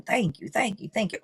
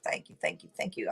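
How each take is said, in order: First: Said in the usual way. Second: Whispered thanks. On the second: Shown as a demonstration. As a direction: whisper "Thank you, thank you, thank you" softly, like a private prayer. Voicing grateful affirmation, whispered repeat.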